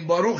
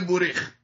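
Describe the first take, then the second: First: The word is said as baruch, with open vowels. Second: The word is said as borikh, with shifted vowels. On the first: This is the older, Western form of the word. "کلمه باروخ شده بوریخ" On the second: This is the Eastern European form of the word. "کلمه باروخ شده بوریخ"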